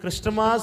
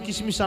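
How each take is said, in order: First: It starts with a clear 'kr' cluster. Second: It starts with 'ki' and adds vowels. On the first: The speaker calls it right. "కొంతమందికి క్రిస్టమాస్ అని చెప్పేది రాదు" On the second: The speaker calls it wrong. "కిసిమిస్ కిసిమిస్ అంటూ ఉంటారు కొంతమంది"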